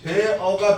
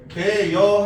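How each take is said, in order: First: The final vowel is said without a y glide. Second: A y glide is added before the final vowel. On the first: This is the standard pronunciation. "되어가 표준 발음인데" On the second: This pronunciation is also allowed. "되여 하는 것도 해주겠다고"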